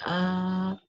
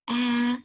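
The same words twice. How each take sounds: First: The shout is at a low pitch. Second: The shout is at a middle pitch. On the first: A large adult is shouting. "Like the daddy bear, he shout like ah" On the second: A mid-sized adult is shouting. "mother shouted like ah"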